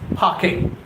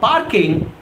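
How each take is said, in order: First: The R sound after the vowel is silent. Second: The R sound after the vowel is pronounced. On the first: The speaker calls it right. "R is quiescent here. it is parking" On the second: The speaker calls it wrong. "It's not parking"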